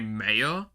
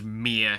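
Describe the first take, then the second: First: An American-style vowel with a New Zealand ending. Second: The local New Zealand pronunciation. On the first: The speaker calls it wrong. "I would say mayor, which is wrong" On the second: The speaker calls it right. "we pronounce it as mere here"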